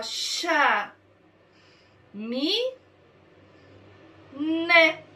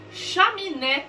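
First: "Chá. Mi. Né." as three isolated syllables; long pause after each of "Chá. Mi. Né."; sílaba por sílaba. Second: "Chaminé" as one word, higher; sílabas juntadas. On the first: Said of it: "Eu peguei as sílabas". ("Chá. Mi. Né." silabado, com pausas longas) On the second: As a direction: blend "Chaminé" without any pause. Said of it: "eu juntei e formei uma palavra". ("Chaminé" inteira, sem pausas) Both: Shown as a demonstration.

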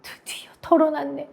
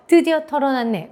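First: Higher, breathy whispered relief; confiding whisper. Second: Said in the usual way. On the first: Acted. Teacher acting out telling a friend a secret, whispered. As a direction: half-whisper it as a secret finally out. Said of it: "친구한테 비밀 얘기해서".

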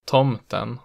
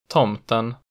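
First: Tomten with pitch rising into a peak on the stressed vowel; accent two pitch. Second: Tomten with an immediate pitch peak; accent one pitch. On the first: Teacher playing minimal pairs, tomten with later-peak accent two. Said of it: "the pitch rises into peak on the stressed vowel". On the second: Teacher playing minimal pairs, Tomten with early-peak accent one. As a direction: say Tomten with the single peak right at the start. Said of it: "The peak in accent one is immediate". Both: Shown as a demonstration.

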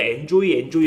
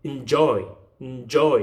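First: "enjoy" as Korean syllables en-jo-i, first one full; Korean-style enjoy. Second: "enjoy" with the front killed, weight on "joy"; stress at back. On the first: Teacher shows how Koreans read enjoy, Korean-style. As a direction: say "enjoy" evenly, the Hangul way. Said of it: "한글로 쓸 때 enjoy 이렇게 쓰니까". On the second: Teacher demonstrates enjoy to learners, stressed at the back. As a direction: swallow the first syllable of "enjoy", stress the second. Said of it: "앞에를 죽여주세요". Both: Shown as a demonstration.

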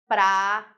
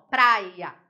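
First: "praia" broken into pra, i, a with long gaps; wrongly split syllables. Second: "praia" as prai-a, diphthong kept together; correct syllable division. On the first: Teacher showing a wrong division, "praia" as pra... i... a. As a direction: pull the diphthong in "praia" apart, three slow separate sounds. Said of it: "Fica errado". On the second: Teacher showing the correct division, "praia" louder as prai-a. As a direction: say "praia" firmly in two joined beats, prai-a. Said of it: "ele tem que ficar certo". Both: Shown as a demonstration.

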